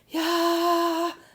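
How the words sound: It is said in a breathy voice. "that's what's making it more breathy"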